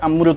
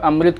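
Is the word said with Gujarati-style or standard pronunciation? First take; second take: Gujarati-style; standard. First: The word is said with a Gujarati-style pronunciation. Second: The word is said with the standard pronunciation. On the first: The speaker calls it wrong. "Gujarati लोग इसका उच्चारण ... करते हैं ... अमृत बोलते हैं" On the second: The speaker calls it right. "इसको अमृत के बजाय"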